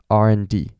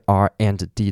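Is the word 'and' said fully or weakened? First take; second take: weakened; fully. First: The word 'and' is weakened and reduced. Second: The word 'and' is said fully and clearly.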